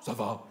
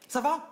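First: The pitch falls at the end, like an answer. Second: The pitch rises at the end, like a question.

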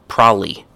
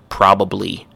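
First: The word is squeezed into fewer, blurred syllables. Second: Every syllable of the word is said clearly. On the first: "Another one is probably" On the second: "the full pronunciation is probably"

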